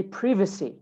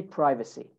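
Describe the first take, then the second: First: British "privacy", PRIV-a-see; short i in "privacy"; British pronunciation. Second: American "privacy", PRY-va-see; long i in "privacy"; American pronunciation. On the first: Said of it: "In British English". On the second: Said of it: "In American English". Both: Shown as a demonstration.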